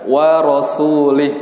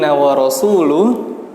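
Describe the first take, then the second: First: The last word ends with an 'ih' sound. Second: The last word ends with an 'uh' sound. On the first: God disowns the messenger too. The speaker calls it wrong. "salah dalam pembacaan harokat" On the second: The messenger also disowns them. The speaker calls it right. "Yang seharusnya"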